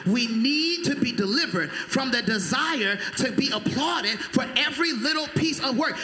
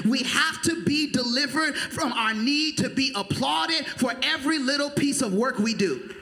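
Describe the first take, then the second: First: Louder repeat. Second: Said in the usual way. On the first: Shown as a demonstration. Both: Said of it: "Let me say it again".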